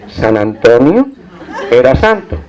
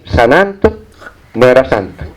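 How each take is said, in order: First: The phrase flows with no break inside. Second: The phrase breaks after 'San Anto'. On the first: Saint Anthony was a saint. The speaker calls it right. "El texto decía realmente" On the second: The saint was not a saint. The speaker calls it wrong. "leía sin hacer puntuación, leía los textos, entonces leía así"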